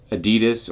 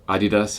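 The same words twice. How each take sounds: First: Adidas is said with an English pronunciation. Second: Adidas is said with a Japanese pronunciation.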